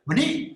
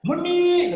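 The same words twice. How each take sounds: First: Said in the usual way. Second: Long, high, loud yelled Meni; long shout. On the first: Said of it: "cuma gitu doang". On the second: Retold or imitated. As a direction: yell it long across the house. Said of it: "dia teriak".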